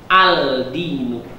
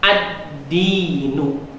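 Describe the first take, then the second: First: The l is pronounced clearly before the d. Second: The l merges into the following d sound. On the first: The speaker calls it wrong. "Tidak boleh kita bacanya" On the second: The speaker calls it right. "suara alnya melebur"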